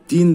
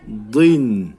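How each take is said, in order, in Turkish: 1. D ve ünlü ince, ön seslidir. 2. D kalın, arka ünlüden kayarak geçiyor. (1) "Din demiyoruz" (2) "Da harfi kalın olduğu için i'dan i'ye geçiş yapıyoruz"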